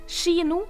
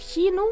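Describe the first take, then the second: First: The word begins with the skj-sound. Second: The word begins with the kj-sound. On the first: "kino for kino" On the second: "bytter ut KJ med SKJ-lyden"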